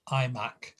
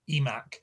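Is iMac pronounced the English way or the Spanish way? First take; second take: English; Spanish. First: The brand name is pronounced the English way. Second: The brand name is pronounced the Spanish way. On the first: The name is kept as it is said in America. "that's what it's called um, in America" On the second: The name is read as a Spanish speaker would read it. "I think if they'd never heard of the one before, they'd say eMac"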